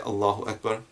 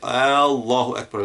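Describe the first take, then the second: First: The opening vowel is kept short. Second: The opening vowel is drawn out long. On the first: It states that Allah is the greatest. The speaker calls it right. "saying it with a short Allahu Akbar" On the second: It asks whether Allah is the greatest. The speaker calls it wrong. "we should never say Allahu Akbar, like is Allah the greatest"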